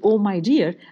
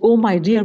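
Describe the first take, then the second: First: It sounds caring and warm. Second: It sounds impatient.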